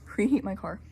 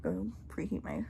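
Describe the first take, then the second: First: Laughing. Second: Breathless whisper; gasping for air; out of breath. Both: Real, not acted. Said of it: "I'm out of breath".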